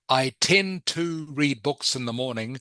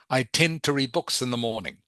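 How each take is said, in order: First: The word 'to' is said fully and clearly. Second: The word 'to' is quick, like a t. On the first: "instead of" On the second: "The two becomes very quick, like a t sound"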